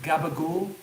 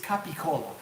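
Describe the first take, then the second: First: The name is shortened, ending in 'gool'. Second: The name is said in full, ending in 'cola'. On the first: This is the Italian-American way of saying it. "that is a purely American Italian way of saying it" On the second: This is the original form of the name. "This is capicola"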